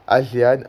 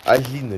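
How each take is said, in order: First: Agean read letter by letter as a-jé-an; spelling-style reading. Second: Agean said as a-jine, two syllables; corrected pronunciation. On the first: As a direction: say Agean in three syllables, a-jé-an. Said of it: "je sais pas comment ça se prononce". (Agean lu à la lettre, a-jé-an) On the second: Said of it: "Je crois que c'est Agean que ça se prononce". (Agean prononcé a-jine, en deux syllabes) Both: Shown as a demonstration.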